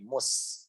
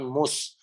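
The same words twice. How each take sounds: First: The s sound is drawn out longer. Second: The s sound is cut short. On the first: The speaker calls it right. "maka shinnya harus ditarik lagi" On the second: The speaker calls it wrong. "jangan mus"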